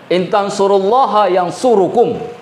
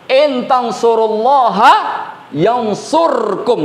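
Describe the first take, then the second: First: The last word has a u vowel after r. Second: The last word has no vowel after r. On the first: The speaker calls it wrong. "Asal kalimatnya ... Tapi tidak, kalimatnya bukan begitu" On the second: The speaker calls it right. "Nggak boleh dibaca yang surukum. Harus disukunkan"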